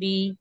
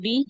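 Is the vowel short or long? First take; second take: long; short. First: The vowel is drawn out long. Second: The vowel is said short and quick. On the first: "एक अलिफ की मिकदार खींच कर पढ़ेंगे" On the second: "इसको जल्दी अदा करेंगे"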